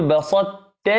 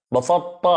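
First: "بسطت" with clear emphatic ط, then t; correct pronunciation. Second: "بسطت" with ط and ت blurred; wrong pronunciation. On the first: Teacher giving students the correct form. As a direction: say "بسطت" the right way. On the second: Teacher imitating the mistaken way. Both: Shown as a demonstration. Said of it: "إنما نقول".

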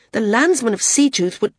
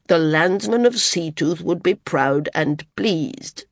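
First: Raised voice, broken off on "would"; heated, cut off. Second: Firm interruption. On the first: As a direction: argue briskly until cut short at "would". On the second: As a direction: cut in firmly and take it slowly. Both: A narrator's reading.

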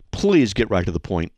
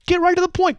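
First: Said in the usual way. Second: "Get right to the point" jumped way up high, "right" hit hard; emphatic. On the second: Shown as a demonstration. Host telling hate mail writers to be brief, emphatic.

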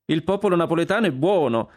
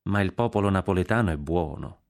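First: High, louder repeat of the claim; emphatic echo. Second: Said in the usual way. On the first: Acted. Consuelo echoing the prince's claim, high and emphatic. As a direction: throw the words back, pitched high.

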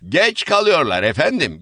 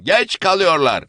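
First: Raised, higher angry complaint; shouting woman. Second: Higher and louder, stress on geç; geç hit hard at the peak; louder shout. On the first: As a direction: shout it at the latecomers. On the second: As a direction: push the repeat harder. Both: Acted. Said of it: "diye bağırdı".

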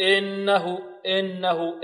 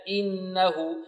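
First: إنه with the kasra leaning toward e; tilted kasra. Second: إنه with a clean i on the hamza; pure kasra. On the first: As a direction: show the wrong imala on إنه. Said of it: "لا نقول". (إنه بكسرة ممالة خطأ) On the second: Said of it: "لا، إنه". (إنه بكسرة خالصة) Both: Shown as a demonstration.

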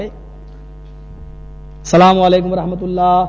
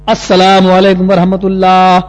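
First: Slow, softer measured chant; sung, intone it evenly, unhurried; sung, imam's closing salam. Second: Slow, louder level chant; sung, intone it firmly on one note; sung, imam's second salam. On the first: Sung, imam ending the prayer, first soft salam. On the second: Sung, imam turning to end prayer, louder salam. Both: Retold or imitated. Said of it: "بالکل یہی style".

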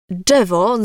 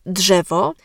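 First: "Drzewo" with drz merged into one dż sound; simplified cluster. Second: Said in the usual way. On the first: Shown as a demonstration. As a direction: say "Drzewo" as "dżewo". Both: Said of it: "Drzewo zamiast drzewo".

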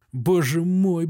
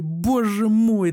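First: First lament, only slightly raised; plain lament. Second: Drawn-out wail. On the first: Doctor in the ward begins to lament, mild plaint. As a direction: say it once, still holding together. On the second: Doctor in the ward breaks toward a slow, higher wail. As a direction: repeat it higher, stretched slow and louder. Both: A narrator's reading. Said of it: "таким тоном, как будто хотел заплакать".

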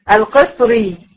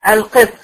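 First: القطري with the ra carrying a kasra, as in continuous reading; القطري ending in a clear kasra vowel; connected form. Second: القطر said in pause with the final ra silent and unvowelled; القطر in pausal reading, ending on a sukun; pausal form. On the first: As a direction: read القطري with a kasra on the ra as if joined to what follows. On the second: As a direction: stop on القطر without a vowel on the ra. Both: Shown as a demonstration. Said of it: "الكلمة اللي بعدها كلمة القطر".

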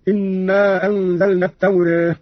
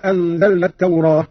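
First: التوراة with its last vowel between a and e; taqlil vowel. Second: Said in the usual way. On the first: Shown as a demonstration. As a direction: end التوراة on "-reh" rather than "-rah". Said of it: "بالفتح والتقليل هكذا". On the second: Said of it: "قرأ قالون بالفتح والتقليل".

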